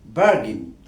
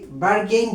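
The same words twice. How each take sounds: First: বার্গেন as "BAR-gin", short second vowel; standard pronunciation. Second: বার্গেইন with a long "gain" ending; common mispronunciation. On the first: Teacher correcting how viewers say it, standard pronunciation. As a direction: stress the first syllable of বার্গেন, end on a short "gin". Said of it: "আসলে standard pronunciation হবে". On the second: Teacher showing what we normally say, common mispronunciation. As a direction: say বার্গেইন as "bar-GAYN". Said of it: "আমরা normally বার্গেইন বলে থাকি". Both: Shown as a demonstration.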